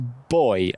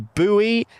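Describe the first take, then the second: First: It is said the British way. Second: It is said the American way. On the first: The speaker calls it right. "it's boy, okay?" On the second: The speaker calls it wrong. "America, you can't pronounce the word boy. You you say buoy"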